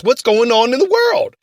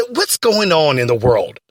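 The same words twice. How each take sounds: First: Said in the usual way. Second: "What's going on in the world?" dropped low with a falling tune; catchphrase. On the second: Shown as a demonstration. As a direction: intone "What's" deep like a show slogan. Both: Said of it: "We always have to say this".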